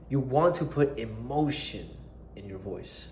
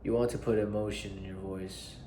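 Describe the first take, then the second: First: The voice is lively and full of emotion. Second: The voice is flat and unemotional. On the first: The speaker calls it right. "I said" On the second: The speaker calls it wrong. "I didn't say"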